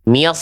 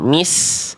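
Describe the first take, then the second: First: The s sound is thick, tongue back raised. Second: The s sound is thin, tongue back lowered. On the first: The speaker calls it right. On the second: The speaker calls it wrong.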